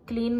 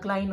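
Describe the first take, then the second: First: The vowel sounds like 'ee'. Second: The vowel sounds like 'eye'. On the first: The speaker calls it wrong. "क्लीन नहीं होता" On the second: The speaker calls it right. "क्लाइन होता है"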